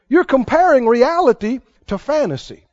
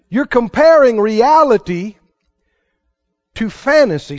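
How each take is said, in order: First: It is said at a normal pace. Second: It is said very slowly.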